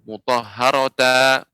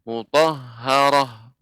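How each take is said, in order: First: The word ends in a ta syllable. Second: The word ends in a bare h sound. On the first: The speaker calls it wrong. "bukan dibaca mutahharata" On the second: The speaker calls it right. "maka dibaca ha sukun"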